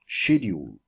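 It is said in a British accent.

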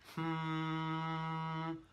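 The hum is tight and pushed from the throat.

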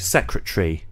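The -ary ending is shortened, losing a syllable. "The British way of doing things, really, with a word which ends in A-R-Y, is to shorten it"

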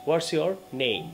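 It is said with pauses between words.

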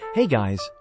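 It is said in an unusual, put-on voice.

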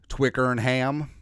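The word is said with an American accent. "Or as us Americans would say"

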